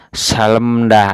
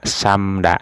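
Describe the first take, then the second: First: An l and an m come before da. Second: Only an m comes before da. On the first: The speaker calls it wrong. "tidak dibaca salemda" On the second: The speaker calls it right. "nah ini di kata samda"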